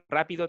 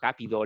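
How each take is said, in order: First: The word begins with a trilled r sound. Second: The word begins with a g sound. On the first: "si tú le dicen rápido"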